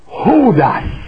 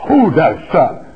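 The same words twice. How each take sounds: First: Hodos shouted up high, stress the S; Greek hodos. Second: Hodos said level, leaning on the final S; Hodos, calm, lean on the S; Greek hodos. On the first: Preacher calling out the Greek word hodos. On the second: Preacher repeating the Greek word hodos. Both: Shown as a demonstration. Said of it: "Emphasis on the S".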